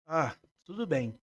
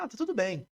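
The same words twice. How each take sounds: First: "tudo bem" drawn out slowly, sinking at the end; downbeat reply. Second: "tá tudo bem" said higher with a lively falling tune; upbeat reply. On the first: Therapist showing how tone reveals "não está legal", downbeat reply. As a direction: say "tudo bem" slowly, as if it is not quite true. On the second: Therapist showing how tone tells she is fine, upbeat reply. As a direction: answer "tá tudo bem" as if all is well, pitch up on "tudo". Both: Shown as a demonstration. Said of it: "a mesma coisa com entonações diferentes".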